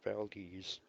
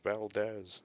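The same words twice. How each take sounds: First: The name is said with the local pronunciation. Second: The name is said with an outsider's pronunciation. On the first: Residents say it this way. The speaker calls it right. "We live here. We know how to pronounce it" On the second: Visitors say it this way. The speaker calls it wrong. "when tourists come up here, they say"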